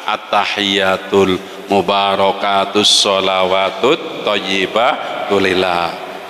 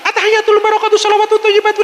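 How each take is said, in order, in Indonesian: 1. Dibaca dengan pelan dan tenang. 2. Dibaca dengan cepat dan tergesa-gesa. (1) "lebih pelan" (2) "bahasa Jawanya trenten"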